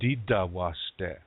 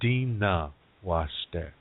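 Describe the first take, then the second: First: It is said in Dakota, with D sounds. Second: It is said in Nakota, with D and N.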